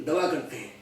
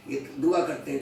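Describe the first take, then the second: First: "दवा करते हैं" with a clear v sound, as dava; imitating the slip, saying "दवा" instead of "दुआ"; wrong pronunciation. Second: "दुआ" said clearly as du-aa, two vowels; careful "ये दुआ करते हैं" with du-aa spoken apart; correct pronunciation. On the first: Mimicking the learner who said medicine instead of prayer. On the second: Shown as a demonstration. Correcting the listener back to the proper "दुआ". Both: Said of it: "तो कुछ इस तरीके से बोल दिया".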